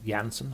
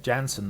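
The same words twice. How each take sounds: First: "Janssen" with the J said as Y; "Janssen" said YAN-sen. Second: "Janssen" with an English J, as in jam; "Janssen" said JAN-sen. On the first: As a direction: say "Janssen" starting like the word yam. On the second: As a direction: say "Janssen" starting with a hard English j sound. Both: Shown as a demonstration. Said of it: "I'm not sure how you pronounce his surname".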